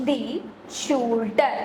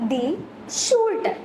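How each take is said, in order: First: Said in the usual way. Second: Raised repeat. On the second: Shown as a demonstration. Teacher repeats German for shoulder higher, prompting the class. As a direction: lift ഷൂൾഡർ high so the class repeats it. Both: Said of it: "എന്താ പറയുന്നത്?".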